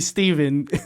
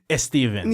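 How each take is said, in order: First: The name starts directly with an s sound. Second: The name starts with an added e vowel. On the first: This is not the real form of the name. The speaker calls it wrong. "it's not really Steven" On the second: This is the real form of the name. The speaker calls it right. "There's an E in front of the Steven"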